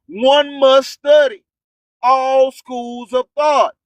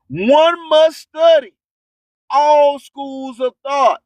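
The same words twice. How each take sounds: The two takes are said the same way.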